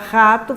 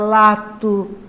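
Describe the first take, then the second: First: The word begins with an R sound. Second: The word begins with an L sound. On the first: The speaker calls it right. "Vou falar rato" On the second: The speaker calls it wrong. "fala lato"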